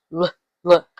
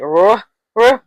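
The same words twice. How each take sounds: First: "Look, look" said as luh, luh with L, not R; two short, separate L syllables for "Look, look"; L sound. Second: "Ruh, ruh" with an R in place of L; mistaken R sound. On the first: Teacher correcting ruh to the L, L sound. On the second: Teacher showing what L is not, mistaken R sound. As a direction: say "Ruh, ruh" as two separate R syllables. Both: Shown as a demonstration. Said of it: "but it's not".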